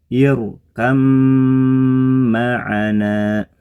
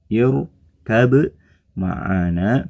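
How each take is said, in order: First: The b merges into the following m. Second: The first word ends with a clear b sound. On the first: This is how it is actually recited. "kemudian dibaca menjadi" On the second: This is how it is written.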